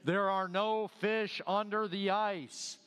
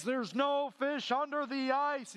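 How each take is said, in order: First: Slow, lightly booming voice from above; a first, measured boom from heaven; slow solemn heavenly voice, only a bit louder. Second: Slow, higher booming heavenly voice; slow mock divine boom, the biggest take yet. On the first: Retold or imitated. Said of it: "she heard a voice loud that seemed like it came from heaven". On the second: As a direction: boom it down like the voice of God. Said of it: "the voice came booming".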